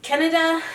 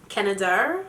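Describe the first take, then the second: First: Said in the usual way. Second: Canada said in a put-on British accent. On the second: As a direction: try "Canada" like a Brit. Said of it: "read it in my British accent".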